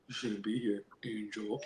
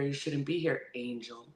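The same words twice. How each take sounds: First: It is said in a put-on deep voice. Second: It is said in the speaker's normal voice.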